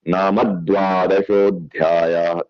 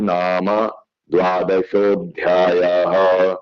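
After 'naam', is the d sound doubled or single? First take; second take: doubled; single. First: Naam runs into a doubled d sound. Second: Naam is kept apart with a single d. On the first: The speaker calls it right. "उन्होंने बोला ... तो इसमें फिर दो दो बन गए" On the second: The speaker calls it wrong. "इससे पहले मैं ये बोलता था"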